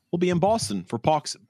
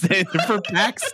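First: Put-on botched Boston accent, pax as pox; Boston vowels, pax comes out pox. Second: Laughing through the correction, pax. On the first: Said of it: "I think I was trying to do a Boston accent". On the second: Real, not acted. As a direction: say pax plainly while cracking up. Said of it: "I was trying to do a Boston accent".

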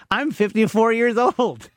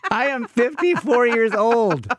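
First: Said in the usual way. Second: "fifty-four" stressed, higher and slow, laughing at himself; slow disbelieving stress. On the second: Real, not acted. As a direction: lean on "fifty-four" slowly in amused disbelief.

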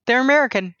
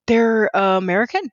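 First: High pitch falling on "American"; surprised realization. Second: Hesitant, higher, rising on "American"; surprised question. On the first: Host confirming the band's nationality to herself, amazed. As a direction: land "American" as a startled statement, pitched up. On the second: Host reliving her Instagram discovery, surprised and questioning. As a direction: question "American" in disbelief, voice lifting. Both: Retold or imitated.

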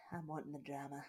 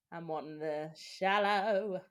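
First: Said in the usual way. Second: Louder and slower on "I'm wanting the shallow", leaning on "shallow"; slow emphatic climax on "shallow"; stress on shallow. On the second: Shown as a demonstration. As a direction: build up and land hard on "shallow".

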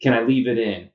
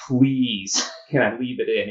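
First: Said in the usual way. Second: Mock begging, half laughing; laughing plea to the surgeon; pleading with a laugh. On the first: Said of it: "And I said". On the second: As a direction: plead with him to keep the rod in, laughing. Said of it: "I just look at him and say".

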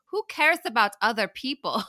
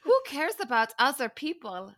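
First: Mock thick German accent, a bit higher. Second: Thick mock German accent, higher pitched. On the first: Podcaster mimicking a cast member, hammed-up German accent. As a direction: say it in a put-on heavy German accent. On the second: Podcaster repeating the cast member's line in a hammed-up German accent. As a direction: overdo the German accent again. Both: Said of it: "a very thick German accent say".

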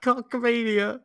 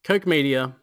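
First: "Cock Media" with a short o, like cock; wrong pronunciation. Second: "Coke Media" with a long oh, like coke; correct pronunciation. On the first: Retold or imitated. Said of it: "I've been calling it cock". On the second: Shown as a demonstration. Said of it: "Is that how you say it?".

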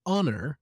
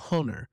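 First: Said in the usual way. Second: HONOR with the H wrongly pronounced aloud; sounded H. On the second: Retold or imitated. Teacher echoing learner's slip, HONOR with sounded H. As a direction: say "honor" with a breathed H at the front. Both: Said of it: "with a sounding H".

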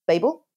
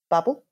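First: Babel said BAY-bul, questioning; Babel as "BAY-bul", rising like a question; long-a pronunciation. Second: Babel said BAB-ul, questioning; Babel as "BAB-ul", rising like a question; short-a pronunciation. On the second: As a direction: say Babel with a short a, rhyming with rabble. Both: Shown as a demonstration. Offers two pronunciations of Babel.

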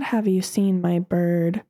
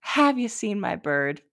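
First: Slow, lightly voiced dim lady; mock clueless neighbor. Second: Mock clueless neighbor. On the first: Neighbor asking about her lost bird, slow and clueless. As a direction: ask it slowly, dim and oblivious.

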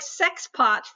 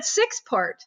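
First: "sex pot" with an e in sex and no r in pot; higher-pitched imitation of a misheard "sex pot"; misheard pronunciation. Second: "six part" said slowly, with the vowels of six and part; intended pronunciation. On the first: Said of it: "it sounded to me like". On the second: Shown as a demonstration. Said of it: "'cause you said six part".

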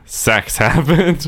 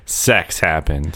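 First: High, slow deadpan. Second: Deadpan. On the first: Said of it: "Mine was literally just the text on the screen". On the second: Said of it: "And it's like". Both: Retold or imitated.

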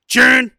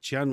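First: Chun barked high and very loud; Wilford Brimley. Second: Said in the usual way. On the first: Acted. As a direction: punch out CHUN in a loud impersonation. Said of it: "say it like Wilford Brimley says it". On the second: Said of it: "Instead of Chun".

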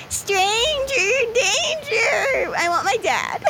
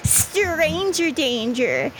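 First: High, slow, whimpering robot; whiny robot cry. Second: Slow robot chant. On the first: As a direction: wail it like a lost child. Frank, higher and crying. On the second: Robot Frank distrusts stranger. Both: Acted.

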